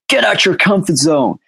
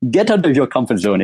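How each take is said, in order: First: It is said in an American accent. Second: It is said in a Nigerian accent. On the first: "I don't know why I said that in American accent" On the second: "Like maybe in Nigeria"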